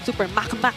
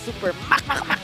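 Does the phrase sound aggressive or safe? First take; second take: safe; aggressive. First: It is said in a calm, safe way. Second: It is said in an aggressive, forceful way. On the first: The play was cautious. "is more safe sounding" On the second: The play was bold and risky. "sounds more. Aggressive"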